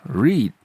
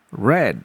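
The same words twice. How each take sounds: First: The vowel is long, like in 'reed'. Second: The vowel is short, like in 'red'. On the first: It is the present form of the verb. "Verb satu dibaca read" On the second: It is the past form of the verb. "Verb dua dibaca read"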